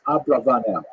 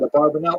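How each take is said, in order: First: The name begins with 'abra', with r before a. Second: The name begins with 'abar', with r after a. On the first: This is probably how he said his own name. The speaker calls it right. "Probably correct is Abravanel" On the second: This is the popular form used in yeshivas. The speaker calls it wrong. "Abarbanel is perhaps if you go to yeshiva"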